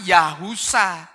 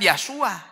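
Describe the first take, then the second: First: A 'u' vowel follows 'Yah', ending in 'sa'. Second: No vowel follows 'Yah', ending in 'sua'. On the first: The speaker calls it right. "Ini dibaca bahkan Yahusa" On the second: The speaker calls it wrong. "Bukan Yahsua"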